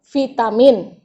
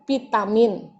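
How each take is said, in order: First: The word begins with a v sound. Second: The word begins with a p sound. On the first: The speaker calls it right. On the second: The speaker calls it wrong. "Ada yang mengatakan dengan vitamin"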